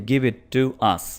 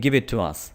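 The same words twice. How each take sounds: First: There is a break before 'to us'. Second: It flows without a break before 'to us'.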